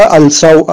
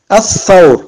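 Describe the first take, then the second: First: Al-thawr with the l sounded; unassimilated lam. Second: Al-thawr with the l silent and th lengthened; doubled th. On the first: Teacher warning learners off the mistake, audible l in "al-thawr". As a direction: say "al-thawr" with an l before a single th. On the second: Teacher giving the correct reading, "Al-thawr" said with double th. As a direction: turn the l of "Al-thawr" into a long th. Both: Shown as a demonstration. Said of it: "On ne dit pas".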